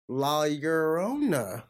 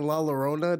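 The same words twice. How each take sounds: First: Each syllable is said separately and slowly. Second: The syllables are run together quickly. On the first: The speaker calls it right. "Syllable by syllable by syllable" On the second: The speaker calls it wrong. "How'd I say it?"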